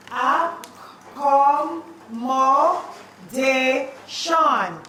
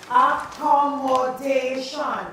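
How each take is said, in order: First: Accommodation drawn out very slowly, each syllable separate. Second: Accommodation said slowly and clearly; slow dictation. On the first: Teacher syllabicating Accommodation for spelling. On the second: Teacher dictating accommodation to the class slowly. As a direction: stretch accommodation out. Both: Shown as a demonstration.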